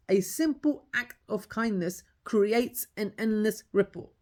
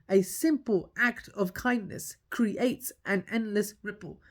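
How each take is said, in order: First: Each word weighed out slowly; slow emphatic motto. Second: Slower, even weightier, fading at the end; slow emphatic motto repeated. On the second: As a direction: hammer the motto home slowly. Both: Shown as a demonstration. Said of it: "Let me say it one more time for you".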